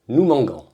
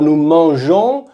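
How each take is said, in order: First: The g is hard, like in go. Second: The g is soft, like the zh sound. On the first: The speaker calls it wrong. "sans le E, ça va faire nous mangons" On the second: The speaker calls it right. "on va rajouter ce E pour avoir le son je"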